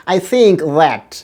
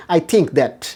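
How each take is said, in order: First: I think that very slowly with both th sounds; slow correct th. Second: I think that with t and d sounds; old habit. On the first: Teacher models the full sentence slowly with th sounds. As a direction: carefully build each th in the sentence. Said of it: "এখন বলেন". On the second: Teacher shows the sentence students usually say. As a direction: say it the old Bangla way. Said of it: "এটা না বলে". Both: Shown as a demonstration.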